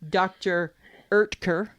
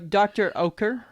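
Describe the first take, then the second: First: The surname begins with an 'er' sound. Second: The surname begins with an 'oh'-like vowel. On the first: The speaker calls it right. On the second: The speaker calls it wrong.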